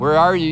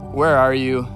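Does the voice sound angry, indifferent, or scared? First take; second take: angry; indifferent. First: The voice sounds angry and threatening. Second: The voice sounds flat and uninterested. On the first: God is ready to punish them. "Was God angry when he said, "Where are you?" Was he ready to discipline?" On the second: God does not really care. "Was God apathetic?"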